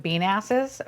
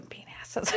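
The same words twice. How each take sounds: First: Said in the usual way. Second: Voiceless whisper; hushed, whispered echo; whispered aside. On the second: Real, not acted. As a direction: repeat it under your breath as a naughty joke. Repeats joke under breath.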